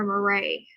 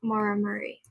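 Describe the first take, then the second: First: Murray said muh-RAY; Murray ending in a stressed RAY; alternative pronunciation. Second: Murray said MUR-ee; Murray with first syllable stressed, ending in ee; trying a pronunciation. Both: Shown as a demonstration. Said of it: "I don't know how to pronounce that".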